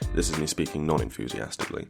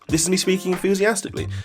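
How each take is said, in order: First: It is said flatly without enthusiasm. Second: It is said with lively enthusiasm.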